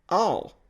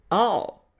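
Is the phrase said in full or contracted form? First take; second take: contracted; contracted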